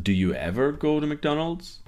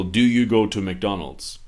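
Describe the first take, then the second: First: "Do you ever go to McDonald's?" asked higher, rising on "go"; unsure questioning tune. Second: Said in the usual way. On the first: Shown as a demonstration. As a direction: sound unsure, lift the pitch on "go". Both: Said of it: "in my tone of voice or my intonation".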